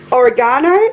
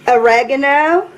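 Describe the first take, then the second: First: It is said with a British pronunciation. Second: It is said with an American pronunciation.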